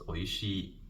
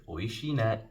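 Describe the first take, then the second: First: Said in the usual way. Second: "Oishii ne" with a light falling ne added. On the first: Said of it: "you would say just". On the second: Shown as a demonstration. Teacher showing learners how to sound warmer. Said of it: "you would say".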